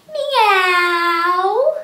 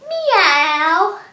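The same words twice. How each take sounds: First: Loud rising meow; cat meow. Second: Loud meow rising at the end; cat meow. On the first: Teacher showing cat sit-ups with a loud rising meow. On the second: Teacher repeating the cat sit-up with a loud meow. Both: Shown as a demonstration. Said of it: "cat sit-ups".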